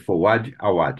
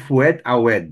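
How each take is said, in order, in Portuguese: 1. O sobrenome é pronunciado de um jeito brasileiro. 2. O sobrenome é pronunciado de um jeito estrangeiro, não brasileiro. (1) "Mas aqui abrasileirou" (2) "Como se fala já num- numa pronúncia mais"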